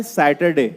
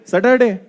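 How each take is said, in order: First: सैटरडे with a silent r, सैटडे; correct Saturday. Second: सैटरडे with the r sounded, सटरडे; wrong Saturday. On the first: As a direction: drop the r in सैटरडे. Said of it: "actual में बोला जाता है". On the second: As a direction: say सैटरडे rolling the r. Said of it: "सटर और डे". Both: Shown as a demonstration.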